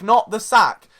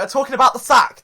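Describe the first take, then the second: First: "not" hit louder; stress on not. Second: About pressed louder; stress on about. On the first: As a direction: punch "not" to set it apart. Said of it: "The, the, the physical sack". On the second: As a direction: lean on "about" to clarify. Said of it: "all right?". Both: Shown as a demonstration.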